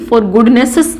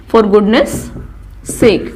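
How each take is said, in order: First: "goodnesses" with an extra es syllable at the end; wrong form. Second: "goodness" with no added syllable, s running into sake; correct form. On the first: Teacher shows the wrong form with the extra syllable. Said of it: "for goodnesses नहीं बोलूँगी". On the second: Teacher gives the correct form, no extra syllable. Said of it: "that would be correct". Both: Shown as a demonstration.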